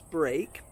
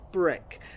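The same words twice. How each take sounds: First: The vowel is a long A sound. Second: The vowel is a short E sound. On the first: The speaker calls it wrong. "Breakfast is not pronounced break" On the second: The speaker calls it right. "but break. This is an exception"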